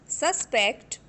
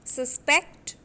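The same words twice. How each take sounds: First: The stress is on the first syllable. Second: The stress is on the last syllable. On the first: It is used as a noun. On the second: It is used as a verb.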